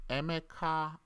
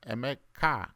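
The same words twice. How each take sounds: First: The final syllable rises in pitch. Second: The final syllable does not rise in pitch. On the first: The speaker calls it right. "It's like a rising tone" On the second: The speaker calls it wrong. "some say uh"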